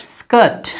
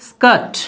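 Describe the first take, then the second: Both takes have the same delivery.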